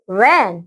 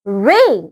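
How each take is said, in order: First: "rain" said as "ran", with a short A; short open vowel in "rain", as in "ran"; short A sound. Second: "रेन" said as "rain", with a long A; long A sound. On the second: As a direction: stretch the vowel in "रेन" into a long ay. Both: Shown as a demonstration. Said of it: "short sound and long sound".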